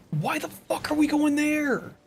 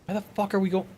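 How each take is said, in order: First: High, drawn-out, exasperated why; exasperated outburst. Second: Said in the usual way. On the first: Real, not acted. Streamer yelling at his teammates' route, exasperated and high. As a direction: stretch the question out in real disbelief. Repeats question, much higher, slower.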